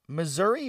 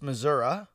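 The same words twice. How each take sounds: First: The word ends with an 'ee' sound. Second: The word ends with an 'uh' sound.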